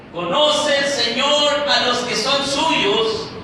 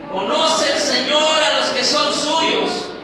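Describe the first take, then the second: The two takes are said the same way.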